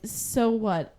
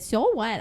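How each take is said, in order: First: It is read in the speaker's own normal voice. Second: It is read in an imitated, put-on voice.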